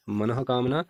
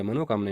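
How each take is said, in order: First: मनः कामना with an audible "ha" before कामना; correct pronunciation. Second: मनोकामना with an "o" after man; wrong pronunciation. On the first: Teacher giving the correct spelling, मनः कामना with voiced visarga. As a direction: say मनः कामना as "manaha-kamna". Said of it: "शुद्ध वर्तनी है". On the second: Teacher contrasting the wrong spelling, मनोकामना said with "mano". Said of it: "यहाँ पर अशुद्ध". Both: Shown as a demonstration.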